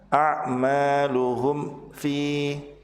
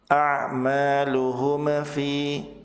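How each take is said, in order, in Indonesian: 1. Ada jeda setelah mim. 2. Mim dibaca dengan gema memantul. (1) "Atau ada jeda" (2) "Tidak boleh memantul"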